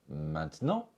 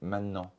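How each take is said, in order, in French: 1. Le son « t » au milieu est prononcé. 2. Le son « t » est absorbé par le « n ». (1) "on peut prononcer maintenant" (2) "le son T est absorbé par le son ne"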